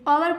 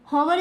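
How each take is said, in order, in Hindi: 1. यह शब्द सीधे एक स्वर ध्वनि से शुरू होता है। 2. इस शब्द की शुरुआत में एक सुनाई देने वाली h ध्वनि है। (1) "ओवर पढ़ते हैं" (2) "हॉवर इसको नहीं पढ़ते"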